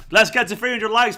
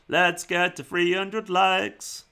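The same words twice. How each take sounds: First: Said in the usual way. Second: Very slow, every word drawn out; stretched-out plea. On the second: Pretend. Streamer urging viewers towards three hundred likes, very drawn-out. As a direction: drag the words out like a slow chant.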